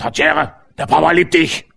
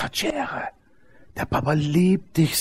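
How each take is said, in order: First: The voice sounds rough and gruff. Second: The voice sounds warm and gentle. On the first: The same message comes across harshly. The speaker calls it wrong. "der ist halt ruppig, grob" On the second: The message comes across as loving. The speaker calls it right. "Jetzt bist du eine super neue Anlage, nagelneuer Lautsprecher"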